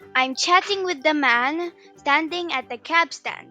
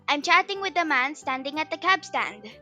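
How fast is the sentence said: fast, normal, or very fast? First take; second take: normal; fast. First: The sentence is said at a normal speed. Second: The sentence is said at a fast speed.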